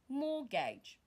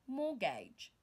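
Both takes have the same delivery.

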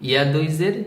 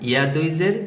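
No difference in how they are said.

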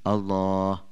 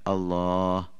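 No difference in how they are said.

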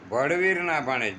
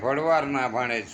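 First: The first word ends with a 'veer' sound. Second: The first word ends with a 'vaar' sound. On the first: The speaker calls it right. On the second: The speaker calls it wrong. "ભળવાર ના નહીં મિત્રો"

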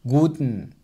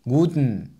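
Both takes have the same delivery.

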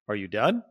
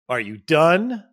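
First: It is asked in a calm, sincere tone. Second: It is asked in a curt, annoyed tone.

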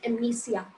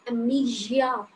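First: The ending sounds like 'sia'. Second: The ending sounds like 'gia'. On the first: The speaker calls it wrong. "This is not amnesia" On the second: The speaker calls it right. "This is amnesia, gia, not sia"

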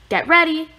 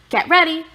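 Both takes have the same delivery.

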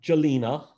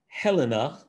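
First: The name begins with a hard J sound. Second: The name begins with an H sound. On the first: "which is not correct" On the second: "which is also not correct"

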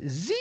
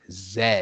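First: It is said the American way, like zee. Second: It is said the British way, like zed.

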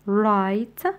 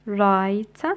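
Both takes have the same delivery.

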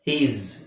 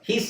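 First: The word ends with a buzzing z sound. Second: The word ends with a hissing s sound. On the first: The speaker calls it right. "ಝೆಡ್ ಅಲ್ಲೇ ಹೇಳ್ತೀವಿ" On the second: The speaker calls it wrong. "ಹೀಸ್ ಅಂತ ಹೇಳ್ಬಾರ್ದು"

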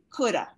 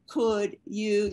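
First: The two words are run together and reduced. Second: The two words are said fully and separately. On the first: The speaker calls it right. "you say coulda" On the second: The speaker calls it wrong. "you don't say could you"

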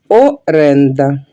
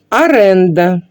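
First: The word begins with an o vowel. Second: The word begins with an a vowel. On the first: The speaker calls it right. "вимовляється, і пишеться через букву О" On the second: The speaker calls it wrong. "Неправильно"

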